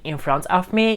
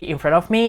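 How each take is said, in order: First: The phrase is said slowly and carefully. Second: The phrase is said quickly and run together.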